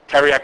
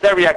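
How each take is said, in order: First: The word begins with a plain T sound. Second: The word begins with a TH sound. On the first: "if you think it's teriac like most of us would pronounce it" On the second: "you think that's a, a T H, then you think it's theriac"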